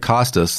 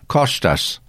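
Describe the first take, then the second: First: The s sounds are plain English s sounds. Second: The s sounds lean toward an sh sound. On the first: "They don't just say, like Kostas" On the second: "they say Kostas. ... They always got that kind of sh sound"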